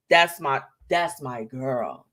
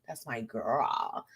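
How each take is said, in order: First: Tender. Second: Slow, soft, lower, tender murmur; tender hushed repeat. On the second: Host praising her friend Chanel, soft tender repeat. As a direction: say it softly like a proud big sister. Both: Real, not acted.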